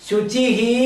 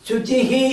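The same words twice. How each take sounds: The two takes are said the same way.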